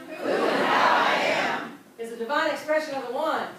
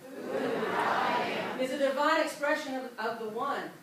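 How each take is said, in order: First: It is said with strong, earnest conviction. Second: It is said plainly, without special conviction.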